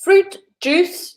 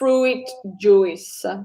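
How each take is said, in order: First: Fruit has a pure long oo vowel. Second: Fruit does not have a pure oo vowel. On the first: The speaker calls it right. "needs to sound like a double O" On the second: The speaker calls it wrong. "not fruit juice"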